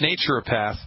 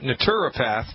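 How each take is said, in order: First: It is said with an American pronunciation. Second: It is said with a British pronunciation. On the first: "here in the good old U S of A, it's" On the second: "if you're from the United Kingdom, you pronounce that"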